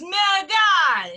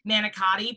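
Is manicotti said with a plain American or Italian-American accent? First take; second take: Italian-American; American. First: It is said in an Italian-American accent. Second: It is said in a plain American accent. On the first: "she'd be like, it's manicotti"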